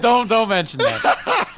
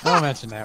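First: Laughing, high and slow; giggling through the words. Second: Said in the usual way. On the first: Real, not acted. Laughing over embarrassing topic.

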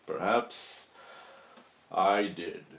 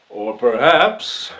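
First: Soft, drawn-out confession; quiet admission. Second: Loud, slow courtroom flourish; dramatic turn. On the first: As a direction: let it drop low and hushed. Dramatic admission to the jury. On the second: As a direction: swell up and hold it. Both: Acted.

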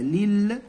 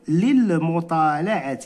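First: Said in the usual way. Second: Slow model reading. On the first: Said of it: "هكذا،". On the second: Shown as a demonstration. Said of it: "إذا شنو غنقولوا؟".

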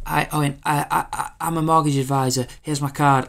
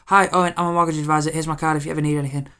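First: Higher, louder, stiff sales patter; chirpy robotic saleswoman greeting; robotic sales pitch. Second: High, loud and fast canned greeting; hammed-up chirpy saleswoman; rushed robotic pitch. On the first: Retold or imitated. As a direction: recite the pitch like a machine. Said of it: "it was so robotic". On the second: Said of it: "just stepped up and just went".

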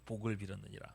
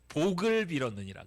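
First: "복을 빌었느니라" repeated lower and much softer; softer echo. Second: Said in the usual way. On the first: Shown as a demonstration. Preacher repeats the verse for the children, softly. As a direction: let the verse fall away quietly.

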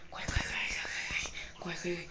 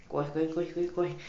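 First: Whispered, hurried urging; urgent whisper. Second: Said in the usual way. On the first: Real, not acted. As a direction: hiss it under your breath to run. Fleeing animatronics, hushed take. (sussurro apressado)

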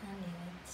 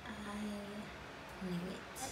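First: Said in the usual way. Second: I knew it stretched very slowly; slow, knowing echo of I knew it; slow drawn-out repeat. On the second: Shown as a demonstration. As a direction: let I knew it crawl out.

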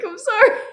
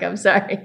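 First: Imitating her own teary apology; teary high apology. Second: Said in the usual way. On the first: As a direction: voice jumping way up and louder, half laughing through tears. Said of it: "And I'm like". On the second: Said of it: "I'm like".

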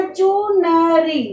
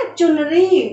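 First: चुनरी stretched out slowly syllable by syllable; slow drawn-out word. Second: Said in the usual way. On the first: Shown as a demonstration. Teacher slowly models चुनरी for class. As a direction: draw out चुनरी slowly for the pupils. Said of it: "शब्द क्या बना?". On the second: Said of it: "क्या शब्द बना बेटा?".

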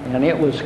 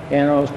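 The two takes are said the same way.

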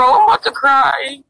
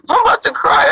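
First: Said in the usual way. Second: Higher, whiny I'm about to cry. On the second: Real, not acted. Begging viewers for a voice changer, whiny and high. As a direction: fake crying plea pitched high.

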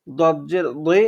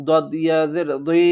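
First: Said in the usual way. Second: Last দি heavy "dwee", held long; one-alif stretch. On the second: Shown as a demonstration. Teacher reading examples to learners, final দি stretched. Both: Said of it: "এক আলিফ টানিয়ে পড়বো".

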